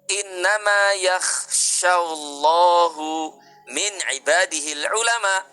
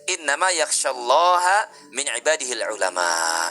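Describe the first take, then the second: First: Allah is said ending in a u vowel. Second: Allah is said ending in an a vowel. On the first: God fears the scholars. The speaker calls it wrong. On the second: The scholars fear God. The speaker calls it right. "yang betul ya adalah ulama takut kepada Allah"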